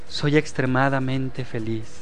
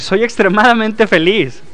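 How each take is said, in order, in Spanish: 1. Se dice con un tono plano y sin sentimiento. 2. Se dice con una emoción viva y sentida. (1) "con ese tono de voz" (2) "sentirlo y vibrar con esa emoción"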